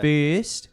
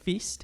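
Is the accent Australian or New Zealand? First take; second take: Australian; New Zealand. First: It is said with an elongated Australian accent. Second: It is said with a clipped New Zealand accent.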